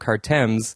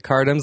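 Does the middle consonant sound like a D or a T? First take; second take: T; D. First: The middle consonant sounds like a T. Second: The middle consonant sounds like a D.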